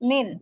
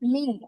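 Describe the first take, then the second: First: The final n is pronounced as a clear n. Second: The final n is hidden in a nasal sound. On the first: The speaker calls it wrong. "এখন এটাকে আর মিন বলতে পারবো না" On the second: The speaker calls it right. "বলতে হবে কি মিং"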